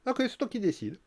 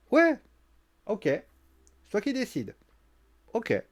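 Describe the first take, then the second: First: "Ok, c'est toi qui décides" pitched high and a little softer, mock sweet; mock-sweet surrender; high sarcastic concession. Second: Drawn-out "ok, c'est toi qui décides" with mock agreement; slow sarcastic concession. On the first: Becky teasing Bayley again, high mock-sweet sarcasm. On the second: Becky mocking Bayley's bossiness, slow sarcastic drawl. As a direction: pretend to give in, dragging it out. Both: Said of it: "Je lui fais".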